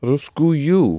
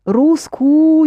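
First: Русскую with both у and ю sounded at the end; full double ending. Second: Русскую high and loud, held on the first у of the ending; unfinished ending. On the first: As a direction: add the last ю to Русскую, pitched up. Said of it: "Another you". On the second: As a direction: break off Русскую before its final ю. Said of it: "You haven't finished with the Russian". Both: Shown as a demonstration.

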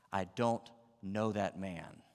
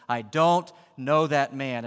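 First: Slow, deliberate oath at normal volume; sworn denial. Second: Loud, slow, higher-pitched denial; swearing denial. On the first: Peter denying Jesus to bystanders with an oath, slow and controlled. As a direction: deny it slowly, word by word. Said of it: "he does it with an oath". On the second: Cornered Peter swearing at the bystanders, loud slow denial. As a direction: hammer out each word at them. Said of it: "He swore at them". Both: Acted.

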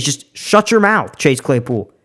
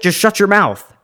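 First: Slow and deliberate, every word spaced; slow, serious. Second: Said in the usual way. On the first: Shown as a demonstration. Vlogger tells Chase Claypool to shut up, slow and deliberate. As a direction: spell it out slowly so he gets it's serious. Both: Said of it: "no, like, I'm serious".

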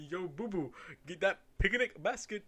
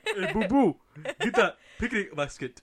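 First: Cartoon bear voice with a laugh, like a bad Jamaican accent; Yogi Bear impression. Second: Much louder, laughing cartoon bear voice; louder Yogi Bear impression. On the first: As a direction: play Yogi asking Boo Boo for the basket. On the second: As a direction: belt out Yogi asking Boo Boo. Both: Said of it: "trying to do a Jamaican accent".

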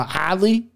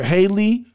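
First: "Hadley" said as had-lee, short a, careful; name finally right. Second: "Haley" said as hay-lee, no d sound; mispronounced name. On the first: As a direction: land "Hadley" on purpose, getting it right at last. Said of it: "nailed it". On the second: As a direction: stumble into "Haley", dropping the d. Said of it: "can't say your name". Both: Real, not acted.

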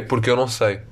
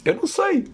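First: Said in the usual way. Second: Jumps way up into a squeaky put-on voice; high mock voice. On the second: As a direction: play it as a silly helpless little voice. Repete em voz aguda fingida. (voz aguda e fingida, a gozar consigo próprio)

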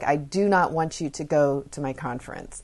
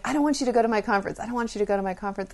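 First: Firm, emphatic "do not", each word spaced out; imitating a child putting her foot down on "do not"; upset insistence. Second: Rapid, high-pitched repeated pleading; insistent child. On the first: Daughter to mother the day before the conference, upset. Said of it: "she got really upset". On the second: Retold or imitated. Daughter to mother before the conference, insistent. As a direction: rattle it off like a nagging kid.

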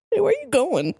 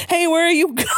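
First: Quick, high-pitched question; high mock call. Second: Very high, stretched comic wail, laughing; calling after falling. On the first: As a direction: toss it out high without stretching it. Repeats the falling line, shorter. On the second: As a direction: stretch it out through the narration like a fall. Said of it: "asked Satan as I fell". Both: A narrator's reading.

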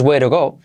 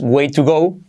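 First: "way to go" with the T softened to R; native linked pronunciation. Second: "way to go" with a hard T in "to"; "way to go" word by word, T kept crisp; careful unlinked pronunciation. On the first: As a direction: run "way to go" together, "to" sounding like "ro". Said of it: "si lo pronuncias así". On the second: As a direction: pronounce "to" fully as "too" in "way to go". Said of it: "no es tan parecido". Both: Shown as a demonstration.

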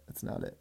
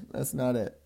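First: Breathy whispered repeat of "That's not it". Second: Said in the usual way. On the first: Shown as a demonstration. Repeating himself to listeners, fading into a whisper. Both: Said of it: "so that's not it".

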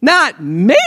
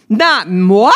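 First: Said in the usual way. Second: A sly, louder mock-French "moi". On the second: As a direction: say "moi" like a haughty Frenchman, tongue in cheek. Mock-French denial of own blame.

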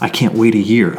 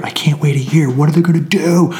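First: Said in the usual way. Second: Hushed fan panic, whispered; mock whisper. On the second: Fan in the theater whispering in mock panic. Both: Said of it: "then you would have me going".

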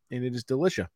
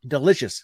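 First: "delicious" slurred as delishuh; slurred word. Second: "Delicious" said carefully after a slur; tipsy retry. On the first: Tipsy host slurring praise of his drink. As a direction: let delicious slur a bit. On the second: Tipsy host retrying the word delicious. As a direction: correct the word with effort. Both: Real, not acted. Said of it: "See, I can't talk".

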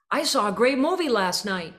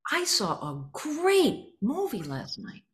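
First: Said loud. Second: GREAT hit high and arcing down, slow; slow, accented, each stressed word bouncing off. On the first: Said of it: "and I said it loud". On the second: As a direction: hit "great" and let it arc down. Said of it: "I accented certain words and I hit them in arc down". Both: Shown as a demonstration.

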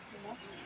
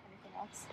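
No difference in how they are said.

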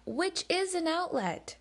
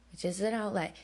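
First: "is" lifted high and stretched, falling to "outlet"; stress on is. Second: "an" given the main weight, level pitch and falling end; stress on an. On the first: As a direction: lean hard on the word "is", pitch jumping up. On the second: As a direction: tap the little word "an" calmly. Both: Shown as a demonstration.

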